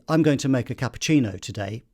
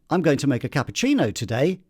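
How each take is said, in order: First: The pitch falls at the end. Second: The pitch rises at the end. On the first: The statement is finished. The speaker calls it wrong. "I've come down at the end of a sentence" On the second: Something else is coming. The speaker calls it right. "I've gone up at the end"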